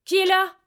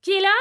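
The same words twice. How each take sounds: First: Loud, higher, alarmed challenge; shouted, higher demand of who's there; forceful demand. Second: Loud, higher call through the door; a loud, higher yell of who's there; shouted question. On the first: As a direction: call out hard into the dark. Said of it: "La voix demanda avec force". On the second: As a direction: shout it nervously at the knock. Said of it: "Je criai". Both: Acted.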